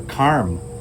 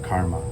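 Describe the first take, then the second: First: The word ends without a final a sound. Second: The word ends with a final a sound. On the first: This is the native Sanskrit or Hindi form. "the actual Sanskrit or Hindi word is" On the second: This is the form used in English. "the A at the end of every Sanskrit word is actually added for English"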